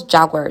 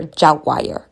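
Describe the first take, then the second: First: Jaguar said as JAG-wer; two-syllable Jaguar. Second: Jaguar said as JAG-wire; three-syllable Jaguar. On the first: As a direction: end Jaguar on a short "wer". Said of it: "they pronounce Jaguar". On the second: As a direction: end Jaguar on "why-er". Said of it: "check the pronunciation". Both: Shown as a demonstration.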